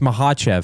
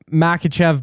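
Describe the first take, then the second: First: The middle consonant is a breathy H sound. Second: The middle consonant is a hard K sound. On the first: The speaker calls it right. "but it's Mahachev" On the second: The speaker calls it wrong. "people say Ma- Makachev"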